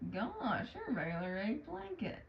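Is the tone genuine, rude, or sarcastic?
sarcastic. The line is said in a sarcastic tone. "that sounds a little more sarcastic"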